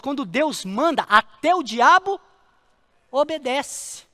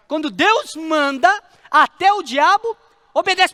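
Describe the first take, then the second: First: Said in the usual way. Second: "Deus manda" loud, high and slow; emphatic preaching repeat. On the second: Real, not acted. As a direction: hammer "Quando Deus manda", then lift "até o diabo" louder. Repeats the point at full force.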